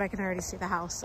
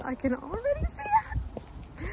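First: Said in the usual way. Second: Excited squeal. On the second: Real, not acted. Fan sees the film house, squealing with excitement. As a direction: voice shooting up into a squeal.

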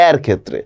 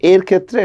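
First: এর with a wide ae as in 'cat'; open ae sound. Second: First এর with a narrow e as in 'say'; closed e sound. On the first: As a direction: open the mouth on the vowel of এর. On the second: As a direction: keep the mouth fairly closed on এর. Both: Shown as a demonstration. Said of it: "মুখটা বেশি খুলতে হচ্ছে".

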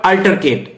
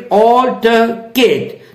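First: "altercate" opening on ah, R sounded; wrong AL-ter-kate. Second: "altercate" slowly, opening on aw; AW-ltuh-kate. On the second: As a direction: say "altercate" as awl-tuh-kate, R silent. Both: Shown as a demonstration. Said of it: "not altercate".

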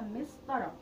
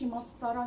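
First: مسطرة said as mistara, with an i on the first syllable; the correct form مسطرة, opening with mi; correct vowel shown. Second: مسطرة said as mastara, with an open a on the first syllable; the incorrect form مسطرة, opening with ma; wrong vowel shown. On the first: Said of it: "اسمها مسطرة". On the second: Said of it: "ما أقولش مسطرة". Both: Shown as a demonstration.

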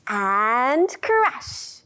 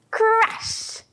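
First: Said in the usual way. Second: High, bursting crash; big crash. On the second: Shown as a demonstration. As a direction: throw the word down like a wave. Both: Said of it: "I can crash my wave".

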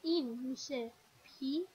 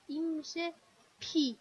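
First: Said in the usual way. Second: «پی» with a tense, stronger p; tensed p. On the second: Shown as a demonstration. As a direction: hit the p of «پی» hard and tight. («پی» با پ تأکیددار) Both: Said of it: "تاکید بیشتره".

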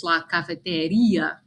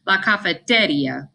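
First: "la cafeteria" stressed on REE, ka-fe-te-REE-a. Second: "la cafeteria" stressed on TE, ka-fe-TE-ria; wrong stress. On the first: Teacher corrects to the accented form, stress on the I. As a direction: lengthen the accented i in "cafeteria" before the final a. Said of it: "but it's la cafeteria". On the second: Teacher demonstrates how it would sound without the accent, stress on TE. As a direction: punch TE in "cafeteria", running the final ia together. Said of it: "instead of how it would be pronounced". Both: Shown as a demonstration.

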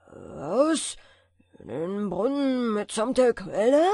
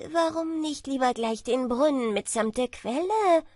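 First: Loud, grumbling giant echo; cartoon brute. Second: Cocky, bragging tailor; boastful. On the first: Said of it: "brummte der Riese". (brummender Riese) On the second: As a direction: brag with a smug lift. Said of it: "fragte der Prahlhans". (prahlerischer Schneider) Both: A narrator's reading.

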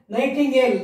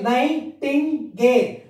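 First: Said in the usual way. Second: NIGHTINGALE slowly as "nigh, tin, gale"; three separate parts. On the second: Shown as a demonstration. Teacher dividing trisyllable words for pupils, slow and separated. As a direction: break NIGHTINGALE into three spaced beats. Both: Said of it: "Three parts".

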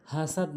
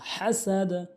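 First: হাসাদ with a soft ordinary h; wrong letter. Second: হাসাদ with a strong throaty h and bounced d; correct big ha. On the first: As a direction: say হাসাদ lightly, without throat h. (হাসাদ ছোট হা দিয়ে) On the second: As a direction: push the h of হাসাদ from mid-throat. (হাসাদ বড় হা দিয়ে) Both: Shown as a demonstration. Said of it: "হাসাদ না".

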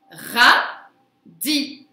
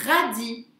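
First: "Radis" split into a loud ra, pause, di; syllable by syllable. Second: Said in the usual way. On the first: Shown as a demonstration. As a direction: punch out "Radis" as two separate syllables. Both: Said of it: "sur la deuxième syllabe".

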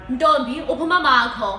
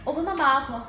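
First: Loud, quick demanding question; insistent father. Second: Lightly voiced father asking; a hint of a father questioning his child; father's question. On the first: Acted. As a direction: raise your voice as a father demanding an answer. Father repeats question more forcefully. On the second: Acts out father's first question.

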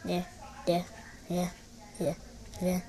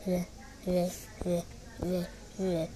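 The two takes are said the same way.

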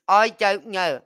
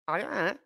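First: "I don't know" blurred into one sliding word; run-together Scottish version. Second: Said in the usual way. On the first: Shown as a demonstration. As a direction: mash "I don't know" like the locals. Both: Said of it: "You just literally run the words all together".

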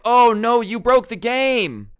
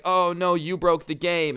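First: Hammed-up wail, much higher and louder, drawn out slowly; mock despair. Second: Higher, a bit louder lighter mock wail; a toned-down, sarcastic oh no; mild mock despair. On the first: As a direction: overplay the tragedy like a cartoon victim. Boyfriend mock-wailing over broken game. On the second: Boyfriend repeats mock lament.

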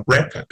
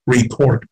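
First: "record" said RE-cord, stress on the first syllable. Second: "record" said re-CORD, stress on the second syllable. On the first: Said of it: "Nhấn vào thứ nhất thì nó là". (nhấn âm đầu: RE-cord) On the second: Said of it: "Nhấn vào thứ hai". (nhấn âm thứ hai: re-CORD) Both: Shown as a demonstration.

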